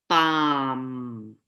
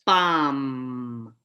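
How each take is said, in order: No difference in how they are said.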